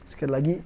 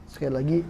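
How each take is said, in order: The two takes are said the same way.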